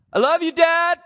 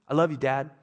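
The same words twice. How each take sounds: First: Put-on much higher, louder little-boy voice; son Levi's voice. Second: Said in the usual way. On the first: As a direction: squeak it like the four-year-old. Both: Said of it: "Levi talks like that normally".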